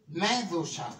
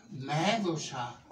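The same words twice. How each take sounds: First: Said in the usual way. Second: Μέδουσα stretched slowly, the last a held long; drawn out slowly. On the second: Shown as a demonstration. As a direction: savour the name Μέδουσα slowly. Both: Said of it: "Με λένε".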